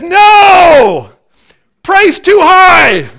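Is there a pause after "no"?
yes. There is a break after "no".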